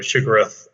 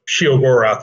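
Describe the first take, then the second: First: The name begins with a single short 'shi' sound. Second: The name begins with a two-part 'she-oh' sound. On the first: This is a variant others use, with a Lovecraftian feel. "it's obviously has a kind of a Lovecraftian" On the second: This is the creator's own pronunciation, built from Theodore. "the she o Dor Gorath. So Sheogorath was sort of how I pronounce it"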